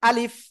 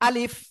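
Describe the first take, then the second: Both takes have the same delivery.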